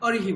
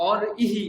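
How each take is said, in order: First: "অরিহি" with r running straight into i; joined syllable. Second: "অর ইহি" split after the r; separated vowel. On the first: Teacher confirms student's answer, r and i joined. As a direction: run "অরিহি" together as o-ri-hi. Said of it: "অরিহি বলছি একসঙ্গে". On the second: Teacher tests student with wrong version, vowel detached. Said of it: "এরকম বলছি কি". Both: Shown as a demonstration.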